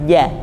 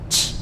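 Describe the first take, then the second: First: The consonant has no strong puff of air. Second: The consonant has a strong audible puff of air. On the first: The speaker calls it right. "tidak sampai mengecap atau tidak sampai berhembus" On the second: The speaker calls it wrong. "hamesnya ya terdengar sekali"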